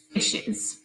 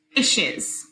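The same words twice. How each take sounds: First: "Fishes" whispered; whispered answer. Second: Said in the usual way. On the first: Shown as a demonstration. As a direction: whisper the word.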